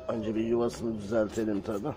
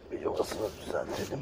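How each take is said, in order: First: Said in the usual way. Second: "Bir yuvasını düzeltelim" whispered, softer. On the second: Real, not acted. Fixing the kittens' nest, whispering to herself. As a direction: say "yuvasını" in a breathy under-the-breath whisper. Repeated under breath.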